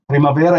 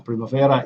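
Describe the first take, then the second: First: It is said with an Italian accent. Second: It is said with an English accent. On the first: The speaker calls it right. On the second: The speaker calls it wrong. "Why did I pronounce it in English?"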